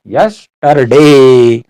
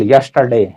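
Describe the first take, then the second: First: Yesterday stretched very slowly and a bit louder; yesterday held long and firm, like a teacher repeating it; drawn out. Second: Said in the usual way. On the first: Shown as a demonstration. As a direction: draw out every sound of yesterday slowly for the class.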